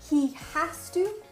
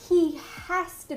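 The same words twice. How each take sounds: First: Has and to are said as separate words. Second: Has and to blend into one reduced word. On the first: This is the careful, proper form. "normally people in proper English would say he has to" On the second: This is the natural everyday form. "to sound natural, you're going to combine the two"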